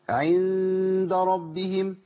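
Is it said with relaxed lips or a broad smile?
relaxed lips. It is said with relaxed, natural lip posture. The speaker calls it right. "الهيئه الطبيعيه للشفتين"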